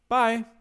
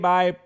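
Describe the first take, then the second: First: It sounds forced and overly cheerful. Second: It sounds flat and low in energy.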